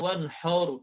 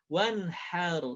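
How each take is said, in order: First: The last vowel sounds rounded, like 'o'. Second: The last vowel sounds open, like 'a'. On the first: The speaker calls it wrong. "bukan wanhar" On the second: The speaker calls it right. "Jadi hanya sempurna wanhar"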